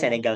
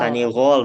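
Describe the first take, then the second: First: The word is said with vowels e, e, a. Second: The word is said with vowels a, i, o. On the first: "Tapi bacanya Senegal, Senegal aja" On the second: "bacanya Sanigol"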